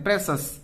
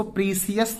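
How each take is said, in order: First: "प्रेशस" in two syllables, short e and sh; correct reading. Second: "प्रीसियस" with long ee and three syllables, pree-si-yas; wrong reading. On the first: Teacher giving students the correct reading, "प्रेशस" as PRESH-us. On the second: Teacher warning students off a misreading, "प्रीसियस" as pree-si-yas. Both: Shown as a demonstration. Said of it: "इसको प्रीसियस नहीं पढ़ते हैं".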